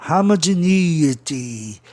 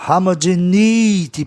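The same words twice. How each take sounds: First: Homogeneity bem devagar, E com som de I forte; Homogeneity arrastado, tônica no E; slow English model. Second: Homogeneity dito devagar, tônica no E com som de I; Homogeneity pronunciado lentamente, sílaba por sílaba; English word model. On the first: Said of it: "o E tenha um som I bem forte". (Homogeneity lento, com E soando I) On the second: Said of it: "Pra você escutar a palavra de forma proparoxítona". (Homogeneity com o E soando como I forte) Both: Shown as a demonstration.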